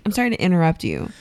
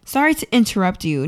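First: "interrupt" quick, said as "innerupt"; fast casual "interrupt" with no middle T; dropped T. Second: "interrupt" with a clear middle T; careful "interrupt", as others supposedly say it; T fully pronounced. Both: Shown as a demonstration. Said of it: "No, I say".

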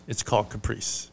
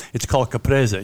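First: "caprice" in two syllables, ending in -eese; mispronunciation. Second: "caprese" with a sounded final vowel, ka-PRAY-zeh; Italian pronunciation. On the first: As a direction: drop the final vowel, ka-PREESE for "caprice". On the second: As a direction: say all three syllables of "caprese". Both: Retold or imitated. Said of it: "if you want help pronouncing it".

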